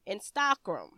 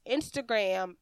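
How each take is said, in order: First: "Instagram" said as in-STOCK-rum; French-style pronunciation. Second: Said in the usual way. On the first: Shown as a demonstration. Voice-over coach showing how French people say it, French-style pronunciation. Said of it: "French people probably pronounce Instagram". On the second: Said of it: "that French people probably pronounce".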